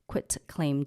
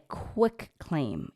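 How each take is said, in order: First: The first syllable ends in a t sound. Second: The first syllable ends in a k sound. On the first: The speaker calls it right. "It's quit, Q U I T, quitclaim deed" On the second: The speaker calls it wrong. "not a quick claim. Everybody always mispronounce that"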